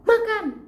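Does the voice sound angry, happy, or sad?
angry. It sounds annoyed, with a heavier tone. The speaker is feeling irritated. "kalau marah nadanya itu biasanya lebih berat"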